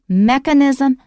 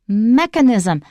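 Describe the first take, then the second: First: The stress is on the first syllable. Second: The same.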